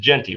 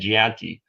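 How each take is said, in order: First: The name is said with a plain English pronunciation. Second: The name is said with a French-sounding pronunciation. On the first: The speaker calls it right. "It's Genti, right?" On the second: The speaker calls it wrong. "You keep on saying Gianti"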